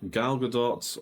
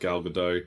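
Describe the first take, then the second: First: The final T of the surname is pronounced. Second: The final T of the surname is silent. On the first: This is how she says her own name. "She pronounces the T" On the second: This is how many people commonly say it. "a lot of people still call her Gal Gadot"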